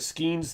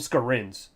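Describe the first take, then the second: First: The name is said without an R sound. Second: The name is said with an R sound. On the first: This is the game's later, switched pronunciation. "more like a Skeens thing" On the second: This is how the game's announcers first said it. "I don't know where they got the R from"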